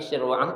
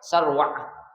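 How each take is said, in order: First: The first vowel sounds like 'i'. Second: The first vowel sounds like 'a'. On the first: "bikasri sin" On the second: "Boleh juga dibaca sarwah"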